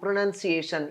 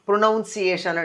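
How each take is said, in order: First: The second syllable sounds like 'nun'. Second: The second syllable sounds like 'noun'. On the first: The speaker calls it right. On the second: The speaker calls it wrong.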